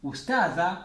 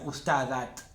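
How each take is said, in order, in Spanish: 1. La palabra termina en una vocal abierta. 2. La palabra termina en un sonido t simple. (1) "Ustada y lo cortan acá" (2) "No digan ustadat"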